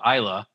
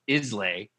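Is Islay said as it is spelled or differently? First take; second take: differently; as spelled. First: The name is not said the way it's spelled. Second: The name is said the way it's spelled. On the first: This is the accepted local pronunciation. The speaker calls it right. "I've been told that it's called Islay" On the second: This is a spelling-based pronunciation. The speaker calls it wrong. "not Islay. That's how it's spelled"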